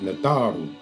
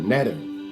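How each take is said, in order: First: The word is said in its full form. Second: The word is said in a shortened form. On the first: The speaker calls it right. "Natharu is the proper pronunciation" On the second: The speaker calls it wrong. "that's more watered down"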